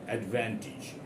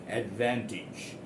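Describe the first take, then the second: No difference in how they are said.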